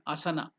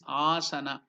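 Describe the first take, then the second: First: No vowel in the word is lengthened. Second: One vowel in the word is lengthened. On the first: The speaker calls it wrong. "it is not asana" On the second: The speaker calls it right. "it is asana"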